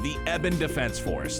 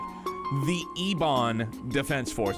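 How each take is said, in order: First: The first word is said in a relaxed, flowing way. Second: The first word is carefully enunciated. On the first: "it flows so much better to say Eben Defense Force" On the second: "The Ebon, you have to, like, enunciate the E"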